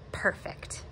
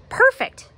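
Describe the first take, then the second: First: Whispered, unvoiced perfect; a murmured whisper of Perfect; soft breathy perfect. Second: A much higher, louder Perfect; high excited Perfect; high squeaky perfect. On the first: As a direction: breathe it out softly as Dad. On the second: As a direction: squeak it out as Dad. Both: A narrator's reading. Dad voiced in read story.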